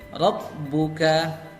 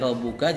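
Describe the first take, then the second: First: The b sound is pressed and held longer. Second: The b sound is short and plain.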